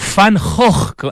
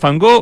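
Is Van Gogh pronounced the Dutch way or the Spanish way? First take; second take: Dutch; Spanish. First: The name is said with throaty Dutch g sounds. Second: The name is said with Spanish sounds.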